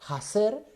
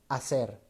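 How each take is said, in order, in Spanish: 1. La palabra empieza con una h aspirada, audible. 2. La palabra empieza directamente con una vocal. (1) "primero pasa por un- una especie de H sonora" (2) "la H que era exhalada va a devenir en la H muda"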